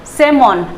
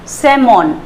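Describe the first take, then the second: Both takes have the same delivery.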